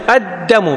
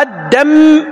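First: الدم with doubled dāl and a single, light mīm; pronuncia corretta. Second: الدم with a wrongly doubled, held mīm; pronuncia errata. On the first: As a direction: double the d in الدم, keep the m short. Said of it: "بتشديد الدال وتخفيف الميم". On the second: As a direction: lean on a long double m at the end of الدم. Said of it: "هذا غلط". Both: Shown as a demonstration.

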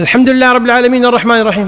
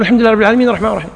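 First: Rapid recitation, a little higher; fast imam recitation. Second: Very fast repeat of "الحمد لله رب العالمين الرحمن الرحيم"; follower hurrying. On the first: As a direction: race through it like a hurried imam. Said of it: "قال". (تلاوة إمام مستعجل) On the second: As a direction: rush to keep up with the imam. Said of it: "تقول". (ترديد سريع جدا للحاق بالإمام) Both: Shown as a demonstration.

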